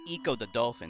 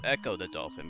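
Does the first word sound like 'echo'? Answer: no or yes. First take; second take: no; yes. First: The first word does not sound like 'echo'. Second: The first word sounds like the word 'echo'. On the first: The speaker calls it wrong. "A lot of people pronounce it Eco the Dolphin. It's not" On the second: The speaker calls it right. "it's Echo the Dolphin, because it's a pun on echolocation"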